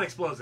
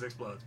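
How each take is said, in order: First: Big explodes. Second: Explodes said much softer and lower, a tiny pop; small explodes. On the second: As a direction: shrink explodes into a little pop. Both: Shown as a demonstration. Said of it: "not explodes, explodes".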